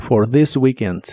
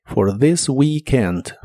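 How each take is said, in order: First: "for this weekend" with voiced th and long ee; "for this weekend" clearly; model phrase. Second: "For this weekend" very slowly, long ee; "For this weekend" buzzing th, slow; slow model phrase. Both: Shown as a demonstration. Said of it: "I larga o doble".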